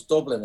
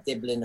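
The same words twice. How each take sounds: First: "Dublin" with a strong Irish U; "Dublin" said the Irish way, with a rounded u. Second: "Diblin" with a short Kiwi i in the first syllable; "Diblin", first vowel shifted from u to i; Kiwi vowel change. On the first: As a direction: correct it to "Dublin", full U in the first syllable. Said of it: "it's a strong U". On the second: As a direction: imitate a Kiwi accent on "Diblin". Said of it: "the Kiwi accent, there's the vowel change". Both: Shown as a demonstration.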